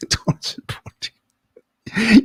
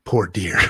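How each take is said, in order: First: Higher, hammed-up crying wail; fake-cry for the poor animal; mock sobbing. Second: Said in the usual way. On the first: Pitying the shot deer.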